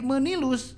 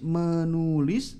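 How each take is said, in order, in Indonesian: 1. Suku kata kedua memiliki vokal i. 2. Suku kata kedua memiliki vokal u. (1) "harokatnya salah gitu ya, menjadi menilus" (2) "asalnya nulis menulis"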